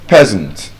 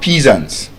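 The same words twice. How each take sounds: First: The first vowel is short. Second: The first vowel is long. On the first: The speaker calls it right. "They have the short S sound in them" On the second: The speaker calls it wrong. "It's not peasant"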